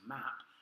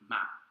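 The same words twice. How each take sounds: First: The final P is released with a puff of air. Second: The final P stops without releasing any air. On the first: "as we would say map" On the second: "it really just stop on P, map. The air isn't released"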